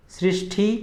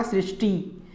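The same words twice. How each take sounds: First: सृष्टि ending in aspirated "thi"; wrong सृष्टि. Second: सृष्टि ending in unaspirated "ti"; no puff in the ti of सृष्टि; correct सृष्टि. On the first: Teacher showing the error, सृष्टि as "srishthi". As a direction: puff the last syllable of सृष्टि. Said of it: "ठ न होकर टी होगा". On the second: Teacher answering own question, सृष्टि as "srishti". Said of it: "शुद्ध रूप क्या होगा". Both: Shown as a demonstration.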